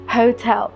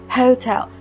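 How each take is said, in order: Both takes have the same delivery.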